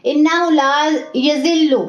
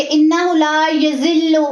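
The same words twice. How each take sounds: First: यज़िल्लु with a soft light ज़; soft zaal. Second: यज़िल्लु with a harsh pressed ज़; wrong hard zaal. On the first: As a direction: ease into the ज़ of यज़िल्लु. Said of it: "इसको नरमी से पढ़ते हैं". (यज़िल्लु नरमी से) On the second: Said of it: "इसे हम ऐसे नहीं पढ़ेंगे". (यज़िल्लु सख्ती से, गलत) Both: Shown as a demonstration.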